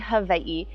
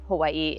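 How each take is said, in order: First: It is said with a traditional Hawaiian pronunciation. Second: It is said with an American English pronunciation. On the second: "pronouncing it the American way"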